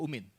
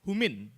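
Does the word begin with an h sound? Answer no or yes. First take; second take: no; yes. First: The word starts directly with a vowel. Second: The word starts with an h sound. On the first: The speaker calls it wrong. "sorry bukan umin" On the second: The speaker calls it right. "Humin, sorry bukan umin"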